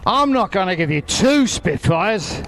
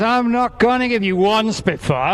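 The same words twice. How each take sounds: First: Market trader patter, stress on two; raising the offer like a stall holler; sing-song market hollering. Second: Market trader patter, a bit higher; sing-song market hollering. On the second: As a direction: build it up like a stall holler. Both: Pretend. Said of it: "I'm gonna sound like a market trader now".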